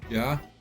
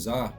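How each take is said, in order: First: The name begins with a J sound. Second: The name begins with a Z sound. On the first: The speaker calls it right. "but it's Ja" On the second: The speaker calls it wrong. "I was saying Za"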